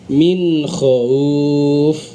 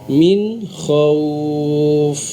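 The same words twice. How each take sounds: First: The waw turns into a glottal catch. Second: The waw is soft with rounded lips. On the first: The speaker calls it wrong. "turun ke hamzah" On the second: The speaker calls it right. "Itulah yang dimaksud dengan lunak"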